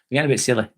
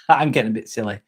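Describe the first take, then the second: First: Said in the usual way. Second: Quick words through a real laugh. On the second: Real, not acted. Streamer to chat, giggling and rushing the words. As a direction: laugh it out, admitting the silliness.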